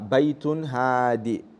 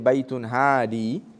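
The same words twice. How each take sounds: First: The final vowel of hadi is kept short. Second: The final vowel of hadi is drawn out long. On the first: A calm home is meant. "Baytun hadi means a calm home" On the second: A guiding home is meant. "you drag it"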